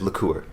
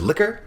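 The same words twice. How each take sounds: First: Liqueur stressed on the second syllable; contrasted pronunciation. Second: Liquor stressed on the first syllable; contrasted pronunciation. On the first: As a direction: put the weight on the end of liqueur. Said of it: "and then there's liqueur". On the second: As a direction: hit LIK in liquor, higher pitch. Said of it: "there's liquor". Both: Shown as a demonstration.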